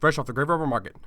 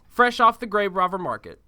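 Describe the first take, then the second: First: It is said very fast. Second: It is said at normal speed.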